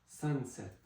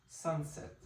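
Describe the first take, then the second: Both takes have the same delivery.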